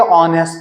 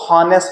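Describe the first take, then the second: First: The word begins directly with a vowel sound. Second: The word begins with an audible h sound. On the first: The speaker calls it right. "जबकि ये ऑनेस्ट है, क्योंकि H इसमें silent है" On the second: The speaker calls it wrong. "कुछ लोग अभी भी इसको हॉनेस्ट पढ़ते हैं"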